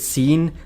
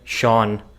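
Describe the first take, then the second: First: It begins with s and rhymes with mean. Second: It begins with sh and rhymes with dawn. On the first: "ninety percent of the Indians would pronounce it seen" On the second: "How is that Sean?"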